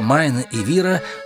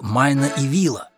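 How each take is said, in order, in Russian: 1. Последнее слово произносится со звуком R. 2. Последнее слово произносится со звуком L. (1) "Вместо «майна и вира»" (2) "он кричал «майна и вила»"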